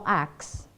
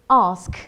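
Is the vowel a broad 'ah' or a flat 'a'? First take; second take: flat a; broad ah. First: The vowel is a short flat 'a' sound. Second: The vowel is a long open 'ah' sound. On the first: The speaker calls it wrong. "A would be the American" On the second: The speaker calls it right. "R would be the British"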